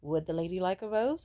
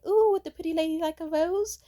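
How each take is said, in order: First: Lightly mocking repeat of an offer, near usual pitch; understated imitation of a smirking date; smirking question. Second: High, loud, cooing saleswoman; gushing mock vendor, pitched way up; rose seller's sales pitch. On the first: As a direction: ask it with a slight smirk. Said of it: "with a smirk and he was like". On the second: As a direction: coo an offer in a high put-on voice. Acts out the rose-selling woman.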